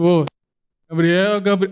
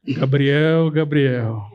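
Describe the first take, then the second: First: It is said in his normal voice. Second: It is said in a put-on God voice.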